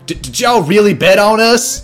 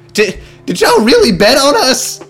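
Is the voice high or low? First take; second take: low; high. First: It is said in a low voice. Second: It is said in a high voice.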